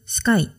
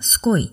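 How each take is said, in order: First: The vowel sounds like 'eye'. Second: The vowel sounds like 'oy'. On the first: This is the usual pronunciation. "普通スカイ" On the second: This is how Australians say it. "それがすこいっていう感じ"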